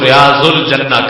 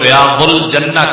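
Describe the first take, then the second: First: The consonant after 'riya' sounds like a z. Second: The consonant after 'riya' sounds like a heavy d. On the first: This is the Urdu pronunciation. "जब उर्दू में अपनी जुबान में बोलेंगे" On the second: This is the Arabic pronunciation. "हम जिस वक्त अरबी जुबान के अंदर इसका जिक्र करेंगे"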